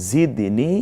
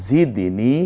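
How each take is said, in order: No difference in how they are said.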